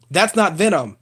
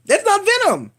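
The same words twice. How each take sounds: First: Said in the usual way. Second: "That's not Venom" jumped much higher in pitch; exasperated high repeat. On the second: Real, not acted. Vlogger insisting to viewers, "That's not Venom" pitched high and exasperated.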